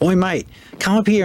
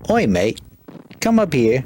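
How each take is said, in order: First: It is said in a put-on Australian accent. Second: It is said in the speaker's normal accent.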